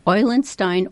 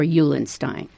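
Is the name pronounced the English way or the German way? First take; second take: German; English. First: The name is pronounced the German way. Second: The name is pronounced the English way. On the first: "depending on whether we're pronouncing it German or English" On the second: "depending on whether we're pronouncing it German or English"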